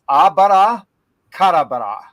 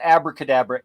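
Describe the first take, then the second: First: It is said the Hebrew way, as abara kadabra. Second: It is said the usual English way. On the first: The speaker calls it right. "that would be saying it correctly" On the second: The speaker calls it wrong. "we're mispronouncing it in the English. It's not abracadabra"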